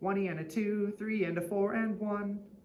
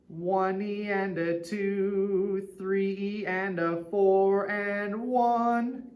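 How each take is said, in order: First: It is counted fast. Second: It is counted slowly.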